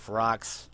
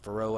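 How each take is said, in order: First: The final x sound is pronounced. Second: The final x sound is silent. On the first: This is how many people commonly say it. The speaker calls it wrong. "a lot of people call it" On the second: This is the believed correct, French-style pronunciation. The speaker calls it right. "I believe the pronunciation is"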